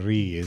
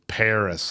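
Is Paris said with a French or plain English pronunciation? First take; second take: French; plain English. First: Paris is said the French way, without the s. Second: Paris is said the plain English way, with the s. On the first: The speaker is showing off how cultured they are. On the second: This is the ordinary, unpretentious way to say it.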